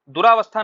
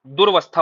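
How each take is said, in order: First: दुरावस्था with long raa; wrong form दुरावस्था. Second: दुर्वस्था as dur-vas-tha; correct form दुर्वस्था. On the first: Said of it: "दुरावस्था नहीं होता". (दुरावस्था, रा में आ के साथ) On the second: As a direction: go straight from r to v in दुर्वस्था. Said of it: "दुर्वस्था होता है". (दुर्वस्था, र के बाद आ नहीं) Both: Shown as a demonstration.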